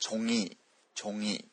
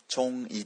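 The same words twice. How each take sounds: First: チョンイ said chong-ngi, ng carried into イ; チョンイ with nasal ngi; correct linked pronunciation. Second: チョンイ said chon-i with the ん kept apart; チョンイ read syllable by syllable; wrong unlinked pronunciation. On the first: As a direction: link チョンイ into one smooth ng glide. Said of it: "になります". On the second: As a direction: break チョンイ between ん and イ. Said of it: "ではなくて". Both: Shown as a demonstration.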